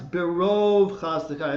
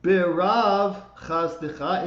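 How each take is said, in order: First: The first word has an 'o' vowel. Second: The first word has an 'ah' vowel. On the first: The speaker calls it right. "it's berov chasdecha... pronounce that o instead of ah" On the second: The speaker calls it wrong. "the second word is not berav chasdecha"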